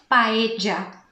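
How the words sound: It is said with an Argentine accent. The speaker calls it wrong. "e não paella, como é o sotaque eh, que se dá na Argentina"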